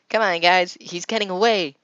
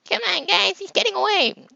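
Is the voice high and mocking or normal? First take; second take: normal; high mocking. First: It is said in a plain, normal voice. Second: It is said in a high, mocking voice.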